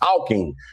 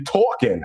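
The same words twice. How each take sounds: First: It is said with a Cincinnati accent. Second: It is said with an East Coast accent.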